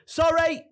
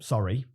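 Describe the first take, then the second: First: It is shouted with force. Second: It is said flatly, without feeling.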